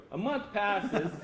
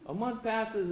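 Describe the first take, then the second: First: Slow dramatic pause. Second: Said in the usual way. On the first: Shown as a demonstration.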